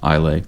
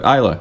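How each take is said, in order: First: It is said as spelled, ending in 'slay'. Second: It is said without the s, ending in 'la'. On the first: This is how the spelling suggests it is said. The speaker calls it wrong. "it looks like it would be pronounced Isla" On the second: This is how the name is actually said. The speaker calls it right. "but Isla"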